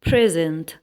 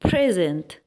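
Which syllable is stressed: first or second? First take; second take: first; first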